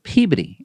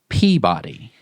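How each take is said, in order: First: It is said with the local pronunciation. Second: It is said with a non-local pronunciation. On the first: This is how locals say it. The speaker calls it right. "why we pronounce it Peabody" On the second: This is how outsiders might say it. The speaker calls it wrong. "and not Peabody"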